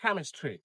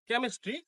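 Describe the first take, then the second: First: "chemistry" as KAM-is-tree, falling; correct pronunciation. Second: "chemistry" as kem-is-tree; common mispronunciation. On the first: Teacher repeats "chemistry" correctly as KAM-is-tree. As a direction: open a in the first syllable of "chemistry". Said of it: "this is chemistry". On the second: Teacher repeats what to avoid, "chemistry" mispronounced as kem-is-tree. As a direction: narrow e in "chemistry". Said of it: "The word is not". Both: Shown as a demonstration.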